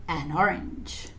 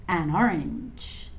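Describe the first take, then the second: The two takes are said the same way.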